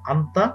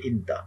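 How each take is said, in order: First: The word begins with an 'a' vowel. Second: The word begins with an 'i' vowel. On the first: This is the standard form. "শুদ্ধ বলতে যান" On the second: This is the colloquial form. "চলিত ভাষা"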